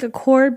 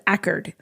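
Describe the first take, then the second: First: The second syllable is a full 'cord'. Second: The second syllable is a reduced 'kerd'. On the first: This is how the car's name is said. "it's spelled like Accord" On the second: This is how the town's locals say it. "but they pronounce it Ackerd"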